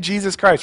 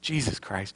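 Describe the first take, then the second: First: It is said in a praising, worshipful tone. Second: It is said in an exasperated, frustrated tone. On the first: The name is used to praise God after a success. "someone made a shot and they're praising the Lord" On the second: The name is used as a curse after a failure. "they miss a shot or I miss a shot"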